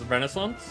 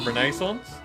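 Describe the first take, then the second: First: The word is said in an American way. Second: The word is said in a non-American way. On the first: "American, I remember ... hearing it on like T V and stuff as Renaissance" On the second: "as opposed to Renaissance"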